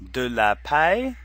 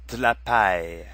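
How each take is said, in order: First: The vowel in de is clearly pronounced. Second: The vowel in de is dropped. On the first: "at one point they say clearly de la" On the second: "in another part they shorten it"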